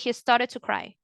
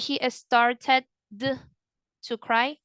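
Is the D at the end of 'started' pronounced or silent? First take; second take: silent; pronounced. First: The D is silent, linked into to. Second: The D of started is clearly pronounced. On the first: The speaker calls it right. "the D goes silent ... you connect the two words" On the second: The speaker calls it wrong. "You don't say"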